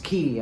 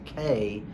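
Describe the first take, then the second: First: The word sounds like 'key', with an ee vowel. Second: The word sounds like the letter K, an ay vowel. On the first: The speaker calls it wrong. "it's actually pronounced Key. I'm like, it's actually not" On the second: The speaker calls it right. "Carnival does actually pronounce it K"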